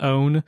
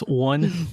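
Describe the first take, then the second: First: The word on sounds like own. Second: The word on sounds like one. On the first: This is the other host's regional pronunciation. "I think yours was more like own" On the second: This is the speaker's own Appalachian pronunciation. "And mine is one"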